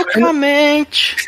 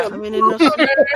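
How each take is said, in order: First: High, slow eunuch word. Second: High, very slow eunuch word. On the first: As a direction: stretch it slowly in a high voice. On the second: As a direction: drawl it slowly and high. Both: Pretend. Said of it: "Então fala".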